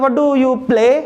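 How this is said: The stress falls on the word play. "Stress कहां पे, play पे"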